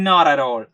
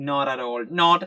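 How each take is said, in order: First: "not at all" blended into one flowing word; native-style linked "not at all". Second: Wrong, word-by-word "not at all"; choppy separated words. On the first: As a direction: run the words together smoothly. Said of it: "Not at all എന്ന് പറയില്ല". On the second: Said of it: "ഒരിക്കലും ഒരു native speaker പറയില്ല". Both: Shown as a demonstration.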